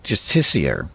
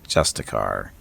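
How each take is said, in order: First: The word is said with four syllables. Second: The word is said with three syllables. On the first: The speaker calls it wrong. "That's a really complicated way of saying Justicar" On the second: The speaker calls it right. "they also pronounce uh, Justicar"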